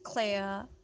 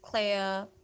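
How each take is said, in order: First: The R at the end is silent. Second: The same.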